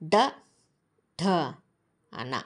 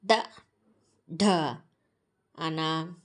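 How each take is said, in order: First: The letters are recited at a fast pace. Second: The letters are recited at a slow pace. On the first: "ఫాస్ట్గా చెప్పా కదా" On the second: "ఇప్పుడు స్లోగా"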